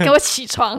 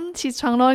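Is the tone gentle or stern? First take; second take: stern; gentle. First: It is said sternly and forcefully. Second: It is said softly and gently.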